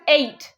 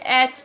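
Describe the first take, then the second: First: The word sounds like the number eight. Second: The word sounds like 'at', short vowel. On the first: The speaker calls it right. "it's pronounced as eight" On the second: The speaker calls it wrong. "don't say at"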